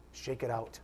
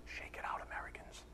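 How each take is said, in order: First: Said in the usual way. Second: Whispered "Shake it out". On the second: Real, not acted. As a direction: whisper "Shake it out" under your breath. Whispered aside to congregation.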